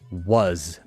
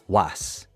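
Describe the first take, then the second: First: It ends in a buzzing voiced z sound. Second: It ends in a hissing voiceless s sound. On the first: The speaker calls it right. "add this z sound, the mosquito sound, to was" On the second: The speaker calls it wrong. "not was"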